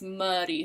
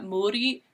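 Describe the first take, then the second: First: The first vowel is a short neutral schwa. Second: The first vowel is a full rounded 'oo'. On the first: The speaker calls it right. "it's muddy, so it's like a, a schwa sound" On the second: The speaker calls it wrong. "the U is not muri"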